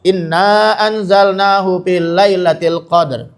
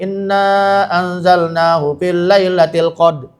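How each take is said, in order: First: The final r sound is clearly voiced. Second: The final r sound is dropped. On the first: The speaker calls it right. "Roknya harus bersuara" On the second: The speaker calls it wrong. "Roknya enggak dibawa, hilang"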